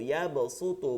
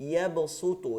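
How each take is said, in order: Both takes have the same delivery.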